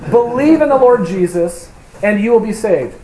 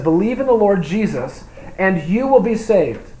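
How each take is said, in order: First: "Believe in the Lord Jesus" said louder and higher, landing on "in" and "Lord"; firm corrective emphasis on "in the Lord Jesus"; stress on believe in the Lord Jesus. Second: Said in the usual way. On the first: Shown as a demonstration. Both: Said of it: "just teaching a little heresy".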